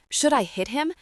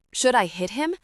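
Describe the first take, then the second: First: Higher, more urgent yelp; panicky repeated scream. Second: Mild narrated yell, a bit higher; scared scream. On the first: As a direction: press the question up in alarm. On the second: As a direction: ask it with a light panicky push. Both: A narrator's reading. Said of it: "Tabitha screamed".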